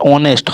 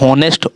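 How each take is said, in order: First: The word starts with a vowel sound. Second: The word starts with an h sound. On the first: The speaker calls it right. "ऑनेस्ट होता है ऑनेस्ट" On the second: The speaker calls it wrong. "ये होनेस्ट"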